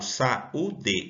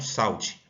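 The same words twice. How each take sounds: First: The stress is on the second syllable, U. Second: The stress is on the first syllable, sau. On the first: The speaker calls it right. "Eu falo saúde" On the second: The speaker calls it wrong. "e não saúde"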